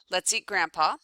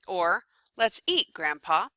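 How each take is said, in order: First: It runs straight on with no pause before grandpa. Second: There is a short pause before grandpa. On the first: Grandpa is the food being eaten. "in the first example, um, you know, grandpa's dead" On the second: Grandpa is being invited to come and eat. "In the second example, it's encouraging grandpa to come and eat"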